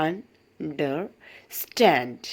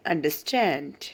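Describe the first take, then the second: First: understand drawn out very slowly, weight on stand; slow teaching read of understand, stress on the end; slow stress demo. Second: Said in the usual way. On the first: Shown as a demonstration. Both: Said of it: "ആ ഒരു ഭാഗം stress ചെയ്ത് വായിക്കണം".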